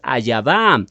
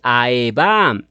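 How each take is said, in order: First: A y sound comes between the vowels. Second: No consonant is heard between the first vowels. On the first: The speaker calls it wrong. "tendrías que añadirle la letra Yod" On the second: The speaker calls it right. "Esta es la correcta transliteración"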